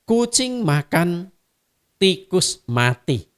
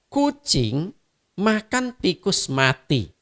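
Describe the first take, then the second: First: There is a pause after the word makan. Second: There is a pause after the word tikus. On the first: A cat is eating; separately, a mouse died. "seekor kucing sedang makan, di tempat lain ada seekor tikus yang mati" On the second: The cat ate the mouse, then died. "kalimat kedua ada subjek predikat objek"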